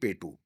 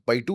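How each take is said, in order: First: It is said like the short word 'petu'. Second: It is said with the full 'payattu' sound. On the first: The speaker calls it wrong. "I said कलरी पेटू" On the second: The speaker calls it right. "Is the राइड"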